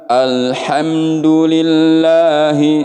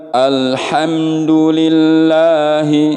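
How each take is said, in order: No difference in how they are said.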